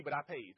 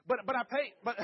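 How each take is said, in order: First: Said in the usual way. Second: Emphatic, louder. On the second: Shown as a demonstration. Telling the audience his kids' treat cost him, emphatic. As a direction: punch it out high and loud, half laughing.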